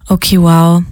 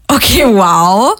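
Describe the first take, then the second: First: It is said in a disappointed tone. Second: It is said in a sarcastic tone.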